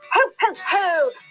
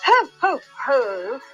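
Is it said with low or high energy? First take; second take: high; low. First: It is said with lots of cheery energy. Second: It is said with little energy.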